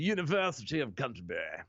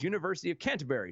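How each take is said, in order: First: It is said in a British accent. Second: It is said without a British accent. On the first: The speaker calls it right. "Thank you" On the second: The speaker calls it wrong. "you can't say University of Canterbury without actually having a British accent"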